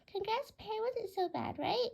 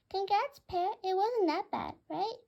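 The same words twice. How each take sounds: First: Bird voice. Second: High, loud budgie voice; chirpy bird voice. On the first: Bluey congratulates Pear. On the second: Budgie Bluey congratulating Pear on stepping up, high loud bird voice. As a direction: squawk it out cheerfully. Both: Acted.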